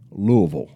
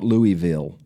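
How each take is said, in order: First: It is said the local Kentucky way. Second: It is said the way northerners say it. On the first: "that's the way I say it" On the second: "That's if you live up north"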